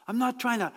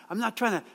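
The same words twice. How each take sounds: The two takes are said the same way.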